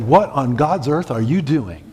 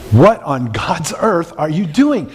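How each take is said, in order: First: It is said with moderate emphasis. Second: It is said with stronger, more forceful emphasis.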